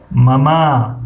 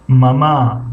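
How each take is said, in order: First: ماما with the first syllable held long; teacher showing the wrong ماما; wrong stress demo. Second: ماما with the last ma drawn out; teacher showing the right ماما; second syllable long. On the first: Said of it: "ماما اگر بگیم غلط هست". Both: Shown as a demonstration.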